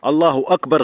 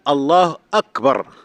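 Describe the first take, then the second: First: A w sound links the two words. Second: No w sound comes before the second word. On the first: The speaker calls it wrong. "غير صحيحة يا شباب" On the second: The speaker calls it right. "الف مش واو"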